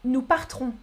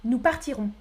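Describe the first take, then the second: First: Partirons squeezed to part-rons; dropped I. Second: Partirons in three syllables, par-ti-rons; full I kept. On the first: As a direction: leave out the I in partirons. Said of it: "Quelle est la prononciation correcte". (« partirons » sans le i, part-rons) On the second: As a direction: sound the I in partirons. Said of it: "La prononciation reste identique". (« partirons » avec le i, par-ti-rons) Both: Shown as a demonstration.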